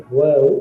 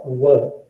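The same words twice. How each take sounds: First: WO with a full, long o; full first syllable. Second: WO cut short with a weak schwa; reduced first syllable. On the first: Teacher shows the first part of the word, full vowel. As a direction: draw out the vowel in WO. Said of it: "The first part is wo or wo". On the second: Teacher shows the faster spoken form, reduced vowel. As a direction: say WO quickly, like "wuh". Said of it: "when you speak faster". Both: Shown as a demonstration.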